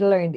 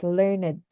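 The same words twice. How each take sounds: First: "learned" said lernd with an open e; wrong pronunciation. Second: "learned" said lurned, with the r-coloured schwa; correct pronunciation. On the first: Tutor repeating her mistaken learned with an open e. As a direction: say "learned" as lehrnd, short e before the r. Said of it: "I said learned". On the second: Tutor giving the correct learned after her mistake. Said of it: "the other one is learned". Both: Shown as a demonstration.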